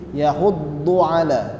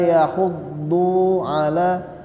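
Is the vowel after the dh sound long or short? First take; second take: short; long. First: The vowel after dh is short. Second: The vowel after dh is drawn out long. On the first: The speaker calls it right. "kita baca dua harokat" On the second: The speaker calls it wrong. "jangan wala yahuddu ala"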